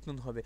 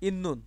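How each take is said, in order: First: The middle consonants are pronounced t then n. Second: The middle consonants are pronounced as a double n. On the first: The speaker calls it wrong. "এই হলো আপনাদের কথা।" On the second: The speaker calls it right. "এইভাবে।"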